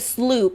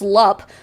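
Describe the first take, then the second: First: The vowel is a long 'oo' sound. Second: The vowel is a short 'u' sound. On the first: This is how the company says it. "they pronounce it Sloop" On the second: This is how the spelling suggests it. "basic understanding of the English language would suggest it's pronounced Slup"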